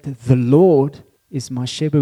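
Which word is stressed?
Lord. The stress falls on the word Lord. "we can put it on three places"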